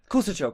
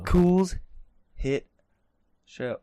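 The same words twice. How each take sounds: First: The phrase is said quickly, run together. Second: The phrase is said at a normal pace.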